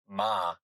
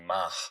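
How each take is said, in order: First: The vowel ends openly with no added breath. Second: The vowel ends with an extra audible breath. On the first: "instead of saying ma" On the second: "this extra breath on the offset of the hay"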